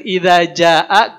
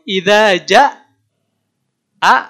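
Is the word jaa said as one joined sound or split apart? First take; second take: joined; split. First: The word jaa is said as one joined sound. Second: The word jaa is split into two parts. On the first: The speaker calls it right. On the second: The speaker calls it wrong.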